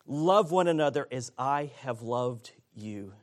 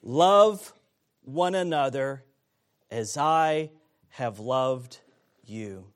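First: Said in the usual way. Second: "Love" punched loud, then "as I have loved" slowed; slow emphatic stress on "Love". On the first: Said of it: "calling his disciples to". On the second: Shown as a demonstration. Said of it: "There it is".

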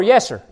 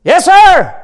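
First: Lower, restrained yes sir; imitated congregant response. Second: Raised, emphatic yes sir; imitated congregant call. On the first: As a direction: lightly mimic a low, casual response. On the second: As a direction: mimic a worshipper calling out with gusto. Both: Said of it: "some were".

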